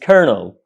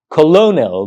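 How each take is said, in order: First: "kernel" as two syllables, KER-nul; "kernel", no middle "lo" sound; correct pronunciation. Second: "colonel" read as spelt, co-LO-nel; "colonel" with stress on a long "lo"; spelling pronunciation. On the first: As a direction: say "kernel" with an r and first-syllable stress. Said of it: "but it's pronounced kernel". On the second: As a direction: say "colonel" in three syllables, both l's sounded. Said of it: "why is it spelled". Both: Shown as a demonstration.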